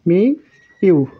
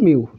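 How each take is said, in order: First: It is said as two separate syllables. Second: It is said as one merged syllable. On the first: The speaker calls it wrong. "মি ইউ হয়ে যাবে" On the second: The speaker calls it right. "হয়ে যাবে শুধু মিউ"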